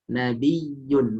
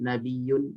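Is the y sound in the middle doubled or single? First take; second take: doubled; single. First: The y sound is doubled and pressed. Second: The y sound is single and unpressed. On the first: The speaker calls it right. "harus ada e, ditekan" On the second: The speaker calls it wrong. "tidak bisa dibaca dengan nabiyun"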